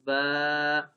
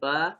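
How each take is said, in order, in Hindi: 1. स्वर लंबा खींचकर बोला जाता है। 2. स्वर छोटा है। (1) "खड़ी ज़बर को थोड़ा खींच के पढ़ा जाता है" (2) "ज़बर"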